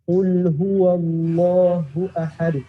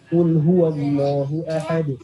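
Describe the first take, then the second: First: It is recited at a moderate speed. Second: It is recited quickly. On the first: "baca agak cepetan dikit. Sedang" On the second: "baru cepat"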